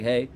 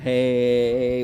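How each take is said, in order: First: The word is said short and flat. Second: The word is stretched out long.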